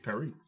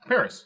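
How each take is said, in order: First: Paris is said the French way. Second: Paris is said the English way.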